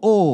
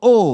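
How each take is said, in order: First: The pitch falls on the vowel. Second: The same.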